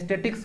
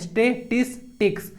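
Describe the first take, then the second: First: The word is said with three syllables. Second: The word is said with four syllables. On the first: The speaker calls it wrong. "बहुत लोग गलत pronounce करते हैं, स्टेटिक्स बोलते हैं" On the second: The speaker calls it right. "तो स्टेटिस्टिक्स होता है"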